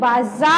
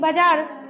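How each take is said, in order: First: The middle consonant is a 'z' sound. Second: The middle consonant is a 'j' sound. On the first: "हम बिंदु लगा दिए तब पढ़ेंगे" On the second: "बिंदु नहीं है तो पढ़ेंगे नॉर्मली"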